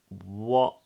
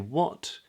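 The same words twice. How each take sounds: First: The final T is stopped in the throat. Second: The final T is clearly released. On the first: This is how many native speakers say it. "I'm stopping it in my throat" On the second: The speaker sounds more careful and speech-conscious. "you could add the T on and say"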